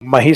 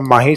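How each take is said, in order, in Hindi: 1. पहला स्वर छोटा है। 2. पहला स्वर लंबा है। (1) "हिंदी प्रोनाउंसिएशन इसका ... मही से किया है" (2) "इसका माही से नहीं"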